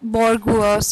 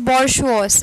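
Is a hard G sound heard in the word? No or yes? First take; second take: yes; no. First: The word is said with a hard G sound. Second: The word is said without a hard G sound. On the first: The speaker calls it wrong. "not bourgeois" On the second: The speaker calls it right. "this is pronounced as bourgeois"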